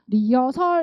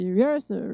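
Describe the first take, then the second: First: All syllables are said with even strength. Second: A weak first syllable glides into a stressed second. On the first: The speaker calls it wrong. "리어설 이렇게 하면 절대 안 돼요" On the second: The speaker calls it right. "리 발음이 작고 헐 강세가 되겠어요"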